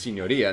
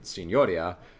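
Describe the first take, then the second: First: The 'o' syllable is not stressed. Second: The 'o' syllable is strongly stressed. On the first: The speaker calls it right. "It's actually the Palazzo della Signoria" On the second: The speaker calls it wrong. "they pronounce it with the strong O"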